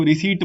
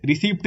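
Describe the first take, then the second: First: रिसीट with a silent p, just ree-seet; right pronunciation. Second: रिसीप्ट with the p sounded before the t; wrong pronunciation. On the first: Teacher giving students the correct way, p silent. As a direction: say रिसीट with no p sound at all. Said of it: "रिसीट बोलते हैं इसको". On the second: Teacher showing students the wrong way, with the p sounded. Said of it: "रिसीप्ट नहीं बोलते इसको". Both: Shown as a demonstration.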